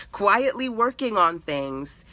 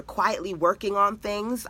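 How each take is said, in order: First: "Quietly" drawn out slow and high; stress on "Quietly". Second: Said in the usual way. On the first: Real, not acted. Teacher repeating her point about hidden work, "Quietly" slowly emphasised. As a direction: lean hard on "Quietly", stretching it. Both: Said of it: "I emphasize the word quietly".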